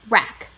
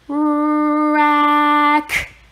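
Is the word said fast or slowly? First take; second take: fast; slowly. First: The word is said quickly together. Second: The word is stretched out slowly. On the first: "Say it fast" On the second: "Do it with me"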